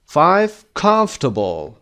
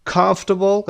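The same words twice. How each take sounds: First: Comfortable said slow, com hit hard; slow comfortable with a heavy first part; stress on com. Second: Comfortable repeated higher, stress on com. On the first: Teacher reads comfortable slowly, first part stressed. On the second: Teacher repeats Comfortable higher with the stress on com. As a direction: lift Comfortable and punch com. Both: Shown as a demonstration. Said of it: "قسمت اول هست".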